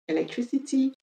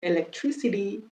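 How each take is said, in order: First: "Electricity" the British way, crisp t in -ty; British English pronunciation, sounding the final t; higher-pitched British demo of "Electricity"; British accent. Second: American English pronunciation, flapping the final t; American accent. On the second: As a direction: demonstrate "Electricity" with an American flapped t. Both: Shown as a demonstration.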